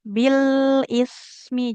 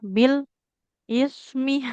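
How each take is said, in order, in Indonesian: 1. Bunyinya menyambung tanpa jeda. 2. Kata-katanya dipisahkan oleh jeda. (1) "Jadi bunyi huruf satu dengan huruf lainnya itu menyambung" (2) "nggak boleh Bil is me, nggak boleh ada jedanya ya"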